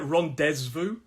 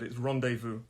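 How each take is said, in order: First: A Z sound is pronounced in the middle. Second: No Z sound is pronounced in the middle. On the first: The speaker calls it wrong. "So it looks like rendezvous" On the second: The speaker calls it right. "but we don't say the Z"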